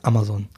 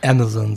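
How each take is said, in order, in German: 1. Es wird kurz gesagt, zwischen Deutsch und Englisch. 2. Es wird mit voller amerikanischer Aussprache gesagt. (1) "Ich sage immer so ganz kurz Amazon" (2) "gestelzt, möchte gern amerikanisch"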